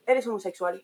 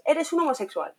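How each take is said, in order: First: Said in the usual way. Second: A higher mock yell as an insult; shouted insult. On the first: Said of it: "no en plan, un hecho". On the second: The child insults a classmate, mock shouting. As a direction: throw it like a playground insult.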